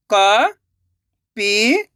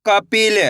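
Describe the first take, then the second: First: Very slow, stretched syllables, rising at the end; sounding out syllables. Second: Said in the usual way. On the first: Shown as a demonstration. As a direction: sound it out slowly, letter by letter. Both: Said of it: "एक एक अक्षर का उच्चारण करके".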